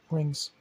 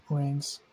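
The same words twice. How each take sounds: The two takes are said the same way.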